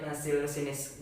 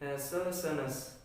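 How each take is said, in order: First: The undotted letters are read as plain i. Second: The undotted letters are read as unrounded ı. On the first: The speaker calls it wrong. "kita pasti akan membaca nasil sinis jika alfabet Indonesia" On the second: The speaker calls it right. "i yang tidak ada titik bukan i tapi e"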